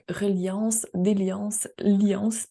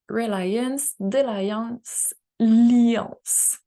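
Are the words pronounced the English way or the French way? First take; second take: French; English. First: The words are pronounced the French way. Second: The words are pronounced the English way.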